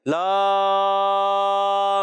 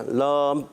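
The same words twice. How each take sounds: First: لام held long and even with no jolt; smooth held letter. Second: لام shut off short and hard; demonstrating a harshly closed لام; wrong clipped letter. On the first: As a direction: draw لام out smoothly, no jerk. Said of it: "جھٹکا بھی نہیں مارنا". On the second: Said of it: "ایسا بھی نہیں کرنا". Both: Shown as a demonstration.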